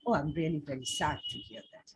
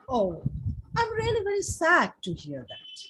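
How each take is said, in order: First: It is said in a sincere, heartfelt way. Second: It is said in an exaggerated, dramatic way. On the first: The speaker truly feels for the person. "you are being sincere" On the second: The speaker is showing off. "you are becoming dramatic a little bit"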